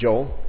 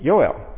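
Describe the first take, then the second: First: The name is said in an American way. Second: The name is said in a Hebrew way. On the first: "we say Joel" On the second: "if you were in Israel, it'd be Yoel, because there's no J"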